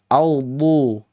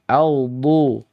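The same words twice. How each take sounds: Both takes have the same delivery.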